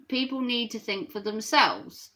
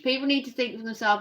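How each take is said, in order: First: Said in the usual way. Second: Rattled off fast, stress on need; quick restatement. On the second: Shown as a demonstration. Streamer rushing to restate the viewer's message, fast. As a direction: repeat the chat message quickly, leaning on "need". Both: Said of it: "what was your message?".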